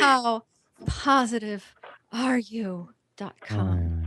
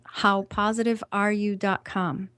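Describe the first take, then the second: First: It is said in a put-on, sultry voice. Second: It is said in her ordinary speaking voice.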